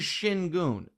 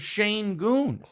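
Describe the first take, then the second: First: The first syllable sounds like shin. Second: The first syllable sounds like shane. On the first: This is the player's actual name. The speaker calls it right. "His name is Shingun" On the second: This is how the announcer keeps saying it. The speaker calls it wrong. "won't stop calling him Shane Goon"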